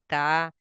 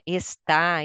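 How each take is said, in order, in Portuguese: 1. A primeira sílaba é totalmente omitida. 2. A palavra é dita por inteiro, com todas as sílabas. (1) "e não assim" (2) "complete a frase"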